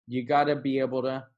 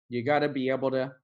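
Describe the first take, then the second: Both takes have the same delivery.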